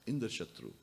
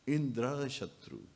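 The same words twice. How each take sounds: First: The word Indra is said quickly. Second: The word Indra is drawn out longer. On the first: The son will be an enemy of Indra. The speaker calls it right. "Indra has to be very quickly said" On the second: The son will have Indra as his enemy. The speaker calls it wrong. "he said it a little longer"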